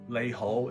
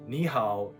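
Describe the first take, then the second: First: It is pronounced the Cantonese way. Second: It is pronounced the Mandarin way. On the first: "is how you say it in Cantonese" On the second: "is hello in Mandarin"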